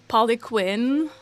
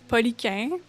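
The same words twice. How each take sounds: First: The name is said with English pronunciation. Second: The name is said with French pronunciation. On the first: "in English, it could be like" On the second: "in French it's"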